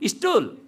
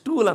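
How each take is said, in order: First: An extra vowel comes before the s sound. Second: The word starts directly with the s sound. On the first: The speaker calls it wrong. "ಹಿಂದೆ ಯಾವುದೋ ಒಂದು ಅಕ್ಷರ ಸೇರಿಸ್ಕೊಂಡು ಬಿಡ್ತಾರೆ" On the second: The speaker calls it right. "ಇಂಗ್ಲೀಷಲ್ಲಿ ಸ್ಟೂಲ್ ಅಂತ ಹೇಳ್ತಾರೆ"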